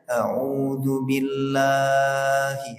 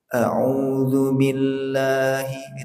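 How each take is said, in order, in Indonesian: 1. Vokal panjang ditahan terlalu lama. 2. Vokal panjang ditahan dua ketukan. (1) "tidak boleh ... itu kepanjangan" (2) "itu mat tabi'i"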